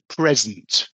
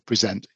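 First: The stress is on the first syllable. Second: The stress is on the second syllable. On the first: It is a thing, a gift. "It's at the beginning" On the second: It is an action of showing something. "if it's a verb, then it's on the last bit"

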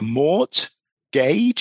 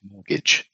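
First: Every letter is sounded, as the spelling suggests. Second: One letter is left silent in the word. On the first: The speaker calls it wrong. "sounds like mort, gauge, if you look at it spelt" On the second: The speaker calls it right. "it's actually pronounced mortgage"

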